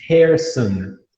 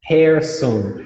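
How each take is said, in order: First: The first vowel sounds like 'air', ending 'on'. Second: The first vowel sounds like 'air', ending 'on'.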